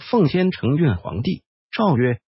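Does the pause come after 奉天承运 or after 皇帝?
after 皇帝. The pause comes after 皇帝.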